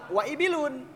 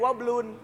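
First: The vowel of ibilun is kept after wa. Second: The vowel of ibilun is dropped after wa. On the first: The speaker calls it right. "Awal kalimat ibilun ada wa ibilun" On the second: The speaker calls it wrong. "tidak menjadi wablun"

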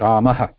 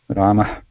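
First: The word ends with a full, voiced 'ha' syllable. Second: The word ends with a faint, breathy puff. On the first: The speaker calls it wrong. "sometimes it sounds like ha completely" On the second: The speaker calls it right. "Like a baby snake's breath"

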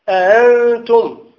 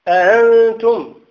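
Both takes have the same delivery.

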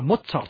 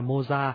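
First: The name is said with German pronunciation. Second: The name is said with French pronunciation. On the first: "Tiếng Đức tên Mozart đọc là Mozart" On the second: "người Việt Nam mình đọc theo tiếng Pháp đã quen là Mozart"

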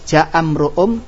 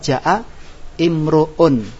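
First: The words run together without a glottal stop. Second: The second word starts with a glottal stop. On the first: The speaker calls it right. "Kita baca sambung" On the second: The speaker calls it wrong. "Kalau bacanya kita putus, kita baca"

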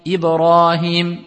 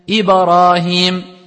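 First: The b has a light bounce with no vowel. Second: The b bounce is exaggerated into an a vowel. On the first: The speaker calls it right. "C'est une erreur. C'est Ibrahim" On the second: The speaker calls it wrong. "ils vont exagérer, ils vont dire Ibrahim. Comme si t'as mis une fatha"

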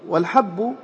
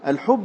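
First: The first vowel is an open 'a' sound. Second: The first vowel is a rounded 'u' sound. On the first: It means a single grain. "هو واحد الحبوب إذا كان بالفتح" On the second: It means a large earthen jar. "الحب بالضم هو الخابية"

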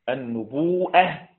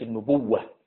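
First: A glottal stop follows the long u. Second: A doubled w replaces the glottal stop. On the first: This is the reading that keeps the hamza. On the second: This is the reading that replaces the hamza.

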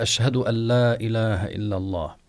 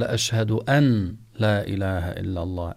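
First: The n merges into a doubled l sound. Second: The n is pronounced separately before the l. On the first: "أن لا بالإضغام، ألا كأنها لام مشددة" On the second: "أن من غير أن يضغم يجوز"

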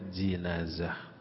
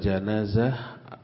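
First: The first syllable has the vowel i. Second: The first syllable has the vowel a. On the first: "bisa dibaca juga jinazah" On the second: "janazah dengan difathahkannya jim"

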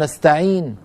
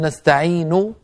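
First: The word ends on a bare consonant. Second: The final vowel is voiced fully. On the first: "يعني يسكن النون" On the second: "هكذا بضمة كاملة"

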